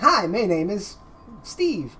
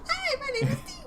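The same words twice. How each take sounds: First: It is said in a normal voice. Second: It is said in the highest voice.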